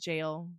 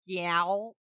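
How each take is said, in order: First: The vowel is long, like in pail. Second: The vowel is short, like in pal. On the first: This is the intended pronunciation. "You're supposed to pronounce it jail" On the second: This is the speaker's preferred way. "the way I say that is gal"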